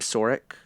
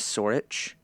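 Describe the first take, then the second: First: The name ends with a 'k' sound. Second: The name ends with a 'ch' sound. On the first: The speaker calls it wrong. "I was calling him Sorik" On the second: The speaker calls it right. "The pronunciation is Sorich"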